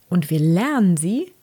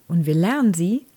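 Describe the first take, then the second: No difference in how they are said.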